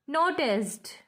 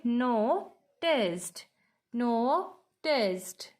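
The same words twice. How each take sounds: First: Said in the usual way. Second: NOTICED broken in two parts, no-ticed, with a pause between; split into syllables. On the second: Shown as a demonstration. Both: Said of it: "two syllable and noticed".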